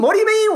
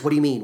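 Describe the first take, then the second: First: Much higher, louder panicked question; rising panic. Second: Said in the usual way. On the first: Acted. Mother learns of her son, panicked high repeat. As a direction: panic climbing to a peak. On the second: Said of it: "She says".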